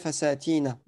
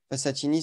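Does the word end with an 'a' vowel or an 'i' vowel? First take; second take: a; i. First: The word ends with a final 'a' vowel. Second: The word ends with a final 'i' vowel. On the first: The speaker calls it right. "il reste mamnu' min as-sarf" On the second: The speaker calls it wrong. "Et non pas euh, fasatini, c'est faux"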